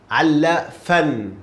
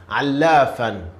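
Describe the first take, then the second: First: Allafan, slow, with the lam held double; doubled lam. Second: Allafan with a doubled lam. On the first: Teacher models the shadda on lam for a student. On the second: Teacher repeats the word for a student. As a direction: sound both l's in Allafan. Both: Shown as a demonstration. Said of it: "lam has shadda".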